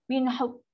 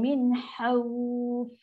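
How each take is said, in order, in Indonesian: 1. Huruf f akhir terpotong, bunyinya keras. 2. Huruf f akhir lembut, melepaskan udara. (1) "dia macam dia tutup mulut tu... Dia dah sangkut, dia dah tertutup" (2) "so kita kena bunyikan min khawf"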